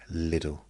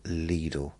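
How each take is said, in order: First: The name rhymes with 'little'. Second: The name does not rhyme with 'little'. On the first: This is the form people in the country insisted on. "It was going to be Lidl" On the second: This is the form the company wanted people to use. "we were never going to use the term Lidl"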